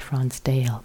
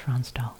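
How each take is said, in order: First: The name ends with a 'dale' sound. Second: The name ends with a 'dahl' sound. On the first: The speaker calls it wrong. "Some people say" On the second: The speaker calls it right. "but it's"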